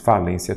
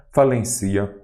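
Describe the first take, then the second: First: "Falência" said fa-LÊN-cia, middle syllable stressed. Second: "falencia" said fa-len-CI-a, stressed on the i; stress shifted to CI. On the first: Teacher showing the accented word, "Falência" stressed on LÊN. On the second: Teacher rejecting the unaccented reading, "falencia" as fa-len-CÍ-a. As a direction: move the stress in "falencia" onto CI. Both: Shown as a demonstration. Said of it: "falencia não".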